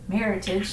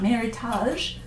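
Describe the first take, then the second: First: The word is said in a plain English style. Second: The word is said in a fancy French style. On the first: The speaker calls it right. "you do say it like that" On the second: The speaker calls it wrong. "not Meritage, all fancy in French"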